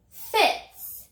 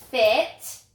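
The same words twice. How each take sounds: First: Fits said higher and louder; emphatic fits. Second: Said in the usual way. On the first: Shown as a demonstration. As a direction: lift and punch fits. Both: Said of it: "now I have".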